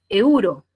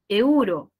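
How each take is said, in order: Both takes have the same delivery.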